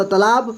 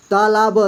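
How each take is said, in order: First: Said in the usual way. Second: तालाब split as ता, ला, ब; syllable by syllable. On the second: Shown as a demonstration. Teacher reading for beginners, तालाब syllable by syllable. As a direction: sound out तालाब with each letter separate. Teacher spells word out, then blends.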